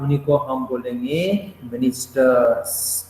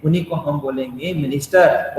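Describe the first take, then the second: First: Slow, spelled-out answer for the class; slow teacher answer. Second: Said in the usual way. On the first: Shown as a demonstration. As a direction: drag out ministers so the students hear it. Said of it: "उन्हीं को हम क्या बोलेंगे भाई साहब?". (धीमे-धीमे, ज़ोर देकर समझाते हुए) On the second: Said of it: "ये लोग जो डिपार्टमेंटल है".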